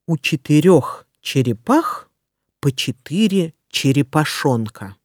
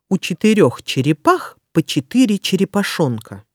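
First: It is said slowly and carefully. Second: It is said quickly. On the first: "Сначала я прочитаю скороговорку медленно" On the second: "А затем я проговорю скороговорку быстро"

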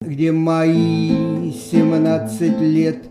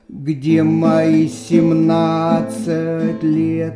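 First: The stress is on мои. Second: The stress is on семнадцать.

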